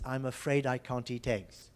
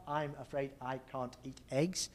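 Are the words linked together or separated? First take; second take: linked; separated. First: Final consonants run smoothly into the next vowels. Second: The words are said separately without linking. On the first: The speaker calls it right. "the consonant moves over" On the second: The speaker calls it wrong. "So it's not"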